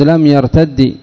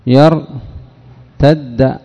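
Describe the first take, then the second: First: يرتد ending on a short i, lam yartaddi; final kasra. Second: يرتد drawn out slowly, ending on a clear open a, yartadda; final fatha. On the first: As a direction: say لم يرتد, its last consonant with kasra. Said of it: "حرك الثاني بالكسر". (نطق لم يرتد بكسر الدال الأخيرة) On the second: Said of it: "حركنا الثاني بالفتح للخفة". (نطق يرتد ببطء مع فتح الدال الأخيرة) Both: Shown as a demonstration.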